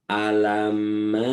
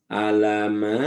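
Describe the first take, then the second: The two takes are said the same way.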